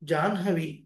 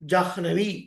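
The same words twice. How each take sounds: First: The n sound comes before the h. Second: The h sound comes before the n. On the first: The speaker calls it right. "నో" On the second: The speaker calls it wrong. "తెలియక కొంతమంది"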